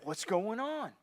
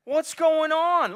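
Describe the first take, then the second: First: Said in the usual way. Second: Slow, drawn-out shout of what's going on; loud puzzled call. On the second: Retold or imitated. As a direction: call out, baffled by the noise. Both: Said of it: "he's like".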